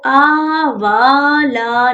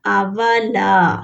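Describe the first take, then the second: First: आवाला with the wrong length, as a warning; wrong reading. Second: आवाला slowly, ला held long; the right way, stretch ला; correct madd. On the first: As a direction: show the mistake in आवाला. (आवाला गलत लंबाई से) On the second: (आवाला सही, ला लंबा) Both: Shown as a demonstration. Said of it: "इसको आवाला नहीं पढ़ना".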